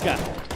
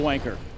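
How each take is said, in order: First: It is said in a British accent. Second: It is said in an American accent. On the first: The speaker calls it right. "Is that better?" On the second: The speaker calls it wrong. "It really doesn't sound good with an American accent"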